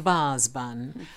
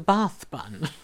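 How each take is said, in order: First: The word ends with a z sound. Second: The word ends with a th sound. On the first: The speaker calls it wrong. "Granny used to pronounce it as a baz bun" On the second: The speaker calls it right. "I only then found out that it was a bath bun"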